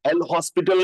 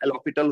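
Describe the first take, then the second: First: It is said with an audible 's' sound. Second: It is said with no 's' sound. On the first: The speaker calls it wrong. "एल हॉस्पिटल नहीं होता" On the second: The speaker calls it right. "वो एलोपिटल होता है"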